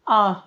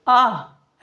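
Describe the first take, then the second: First: It is said with a sad, grieving feeling. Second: It is said with a joyful, cheerful feeling. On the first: The speaker feels grief at someone's misfortune. The speaker calls it right. "तो भाव भी change होना चाहिए" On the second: The speaker is pleased or delighted. The speaker calls it wrong. "आहा वाला भाव यहाँ आह में मत कर दीजिएगा, ... आह ऐसे नहीं"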